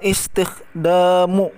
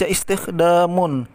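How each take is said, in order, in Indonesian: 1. Kata ini diakhiri vokal u biasa. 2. Kata ini diakhiri u lalu n. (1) "dibaca dhammah biasa, bukan dhammatain" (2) "bukan dibaca istikhdamun"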